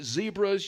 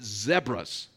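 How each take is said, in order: First: The first vowel is a long 'ee' sound. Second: The first vowel is a short 'eh' sound. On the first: This is how Americans say it. The speaker calls it wrong. "You don't pronounce it zebras ... It's not Z-E-E-B-R-A" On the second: This is how the locals say it. The speaker calls it right. "you pronounce it zebras ... It's Z-E-B-R-A"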